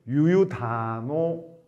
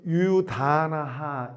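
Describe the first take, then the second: First: The word ends in an 'o' vowel. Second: The word ends in 'a' followed by a breathy 'ha'. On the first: The word is read joined to the following word. "이어 읽을 때는 유유다노 이와 같이 음이 변하고" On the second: The word is read on its own, separated from the next. "끊어 읽으면 유유다나하 이렇게 되지만"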